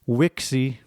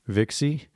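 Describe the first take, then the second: First: The word begins with a W sound. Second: The word begins with a V sound. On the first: This is the classical Latin pronunciation. "in classical Latin, the V sounds like a W" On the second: This is the church Latin pronunciation. "That's ecclesiastical Latin. The V sounds like a V"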